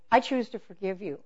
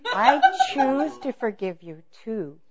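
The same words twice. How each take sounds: First: Said in the usual way. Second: Slow, loud, higher show of forgiveness; mock sincere. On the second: Wife forgiving her husband while not meaning it, mock sincere. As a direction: overdo meaning it, drawn out. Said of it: "so you sound like you mean it".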